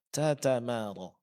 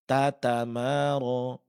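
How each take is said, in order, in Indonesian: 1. Bunyi t dilepas dengan hembusan napas yang terdengar. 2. Bunyi t dilepas tanpa hembusan napas yang terdengar. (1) "Bagian dari sifat hamas tetap di dipraktikkan" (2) "Ini salah. Karena menghilangkan sifat hamasnya"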